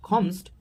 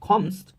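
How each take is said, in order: Both takes have the same delivery.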